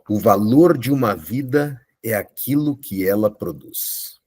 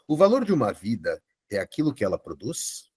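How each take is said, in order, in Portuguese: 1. Termina com uma entonação descendente, como de afirmação. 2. Termina com uma entonação ascendente, como de pergunta. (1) "já foi definitivo, sem espaço para manobra" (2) "vamos entonar como Dário entonaria"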